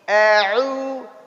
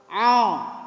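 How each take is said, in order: First: The sound comes from the throat, not nose. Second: The sound goes out through the nose. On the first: The speaker calls it right. "Tapi au, au. Enggak" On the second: The speaker calls it wrong. "Masuk hidung enggak? Au. Masuk"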